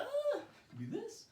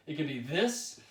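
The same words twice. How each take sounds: First: Much higher, slow, silly squeak. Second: Said in the usual way. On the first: Shown as a demonstration. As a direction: squeak it out slowly, playful. Repeats phrase in silly voice.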